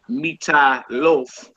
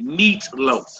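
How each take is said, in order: First: A vowel is sounded after the first syllable. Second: No vowel is sounded after the first syllable. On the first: The speaker calls it wrong. "you don't say" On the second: The speaker calls it right. "You say"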